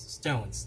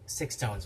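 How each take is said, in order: First: The name is said as one word, stones. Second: The name is said as two words, six tones. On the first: The speaker calls it right. "It's Stones" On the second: The speaker calls it wrong. "we don't pronounce it as SixTONES"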